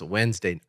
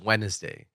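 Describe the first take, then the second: First: It is said without an added syllable. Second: It is said with an added syllable. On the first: This is the standard pronunciation. "it's technically pronounced Wednesday" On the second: This is the speaker's personal pronunciation. "I pronounce it Wednesday. ... I add a syllable in there"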